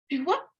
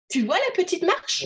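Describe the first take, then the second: First: There is a break after 'tu vois'. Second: It runs on without a break after 'tu vois'. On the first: A little girl is walking. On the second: The listener is asked about a small step.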